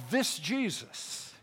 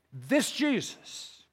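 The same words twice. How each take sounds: The two takes are said the same way.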